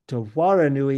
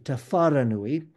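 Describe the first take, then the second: First: The second word begins with a W sound. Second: The second word begins with an F sound.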